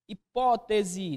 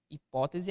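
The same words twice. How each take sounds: First: "Hipótese" very slow, stretched on PÓ; slow syllable-by-syllable "Hipótese" to show the stress; stressed syllable drawn out. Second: Said in the usual way. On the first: Shown as a demonstration. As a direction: draw out the PÓ in "Hipótese". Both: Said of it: "Hipótese é proparoxítona".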